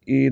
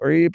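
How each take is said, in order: First: The vowel starts with a plain glottal stop. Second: The vowel starts with a squeezed throat sound. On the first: The speaker calls it wrong. "ई नहीं पढ़ना वरना हमज़ा पढ़ा जाएगा" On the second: The speaker calls it right. "ऐन के नीचे ज़ेर है, ई पढ़ना है"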